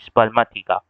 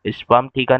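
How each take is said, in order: First: Said as one word with 'a' after 'sperm'. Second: Said as two parts, 'sperm theeka', no linking vowel. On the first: The speaker calls it right. "स्पर्माथिका बोला जाता है" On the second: The speaker calls it wrong. "स्पर्म थीका नहीं"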